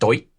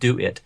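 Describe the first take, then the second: First: It is squashed into one funny syllable. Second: It is said as two separate words.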